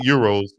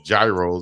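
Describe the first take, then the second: First: The word is said the way his group says it. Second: The word is said just as it is spelled. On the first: This is how the speaker's own community says it. "some good old Euros, as we call them" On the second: This is how other people, reading it as written, say it. "as some people might say"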